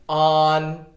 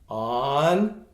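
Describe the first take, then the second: First: The pitch stays high and level. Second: The pitch rises from mid to high. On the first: "On on first tone" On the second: "On on second tone"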